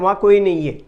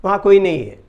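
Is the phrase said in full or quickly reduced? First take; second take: reduced; reduced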